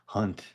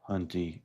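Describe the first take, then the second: First: The final E is silent. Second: The final E is pronounced as a vowel. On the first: The speaker calls it right. "you even told me the E silent" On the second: The speaker calls it wrong. "I'm over here still saying it like an idiot"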